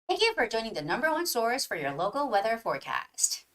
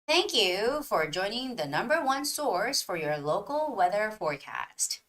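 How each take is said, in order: First: The sentence is read at a fast pace. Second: The sentence is read at a slow pace. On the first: "And here goes the faster one" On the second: "So that was a slower one"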